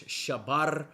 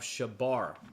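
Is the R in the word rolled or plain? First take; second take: rolled; plain. First: The R is rolled with a trill. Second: The R is said plain, without a trill. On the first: The speaker calls it right. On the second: The speaker calls it wrong.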